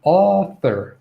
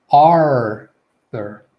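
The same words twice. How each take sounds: First: Author drawn out on a wide back AW; teacher's careful author, AW held; open AW vowel. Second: Arthur loud, with a long R before TH; emphatic, drawn-out Arthur; enunciated R. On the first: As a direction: demonstrate author with a long first vowel. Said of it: "It's the aw". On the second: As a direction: stretch the R in Arthur. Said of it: "you can enunciate this R sound". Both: Shown as a demonstration.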